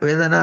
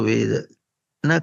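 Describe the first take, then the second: First: The two words run together without a break. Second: There is a small break between the words. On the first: The speaker calls it wrong. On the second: The speaker calls it right.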